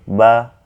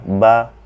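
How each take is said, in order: The two takes are said the same way.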